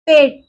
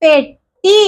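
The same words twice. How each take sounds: First: "പെട്ടി" repeated with a falling, settled tune; confirming repeat. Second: "പെട്ടി" read out with a rising, open tune; reading the word aloud. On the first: Teacher confirming the word for the class, falling tune. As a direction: say "പെട്ടി" again and let the voice drop to close it. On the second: Teacher modelling the word for the class, rising tune. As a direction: say "പെട്ടി" with the voice going up at the end as the first reading. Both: Shown as a demonstration. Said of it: "എ ചിഹ്നം നമുക്ക് വായിച്ചു നോക്കാലോ".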